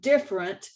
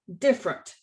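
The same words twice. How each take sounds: First: The word is said with three syllables. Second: The word is said with two syllables. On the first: The speaker calls it right. "The word different has three syllables" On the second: The speaker calls it wrong. "we in Texas pronounce it with two syllables"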